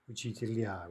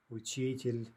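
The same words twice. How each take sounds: First: Учителя with stress on the final я; stress on last syllable. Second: Учитель with stress on the и; stress on middle syllable. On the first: Teacher giving the plural, учителя stressed on the ending. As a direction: land on the end of учителя. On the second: Teacher giving the singular, учитель stressed in the middle. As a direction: lean on "чи" in учитель. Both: Shown as a demonstration. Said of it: "These are all in-stressed".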